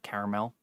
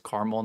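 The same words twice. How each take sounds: First: "caramel" as CARE-uh-mel, softly; three-syllable pronunciation. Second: "caramel" as CAR-mul; two-syllable pronunciation. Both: Shown as a demonstration. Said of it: "not caramel".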